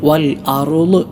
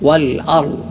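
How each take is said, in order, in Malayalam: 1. r-ന് ശേഷം ഒരു അധിക കുതിക്കുന്ന സ്വരാക്ഷരം വരുന്നു. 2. r അടുത്ത ശബ്ദവുമായി കുതിപ്പില്ലാതെ ചേരുന്നു.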